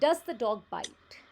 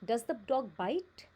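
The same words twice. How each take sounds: First: It sounds sure and confident. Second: It sounds unsure and doubtful.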